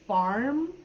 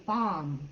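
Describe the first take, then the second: First: "farm" with a full r, drawn out; American "farm". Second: "farm" with the r dropped, drawn out; New Zealand "farm". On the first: Teacher shows learners American English, "farm" with its r. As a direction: stretch "farm" and sound the r. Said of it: "in American English, I would say". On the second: Teacher attempts Kiwi speech, r-less "farm". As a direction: stretch "farm" and let the r disappear. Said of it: "in New Zealand, they might say". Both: Shown as a demonstration.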